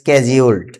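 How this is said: The word begins with an 'sk' sound. "আমেরিকার উচ্চারণে"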